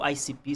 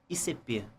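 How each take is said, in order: First: The letters are spelled with English letter names. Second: The letters are spelled with Portuguese letter names.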